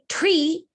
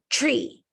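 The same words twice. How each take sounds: First: The t and r are sounded separately. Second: The tr blends into a ch-like sound. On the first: The speaker calls it wrong. "We don't say tree" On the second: The speaker calls it right. "we say tree"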